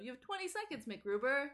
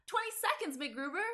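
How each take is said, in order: First: High, bright announcer-style countdown; peppy Kristen Wiig voice. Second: Much higher, perky sketch voice; peppy Kristen Wiig voice. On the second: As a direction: pop the countdown up high and perky. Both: Retold or imitated. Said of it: "the peppy Kristen Wiig voice".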